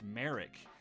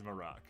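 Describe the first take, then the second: First: The name is said as Merrick. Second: The name is said as Marak. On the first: The speaker calls it wrong. "it was pronounced Merrick. This is untrue" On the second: The speaker calls it right. "It is Marak"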